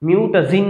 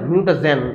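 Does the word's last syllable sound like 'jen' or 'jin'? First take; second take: jin; jen. First: The last syllable has an 'ee' vowel, 'jin'. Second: The last syllable has an 'e' vowel, 'jen'. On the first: The speaker calls it wrong. "মিউটাজিন বলা যাবে না" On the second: The speaker calls it right.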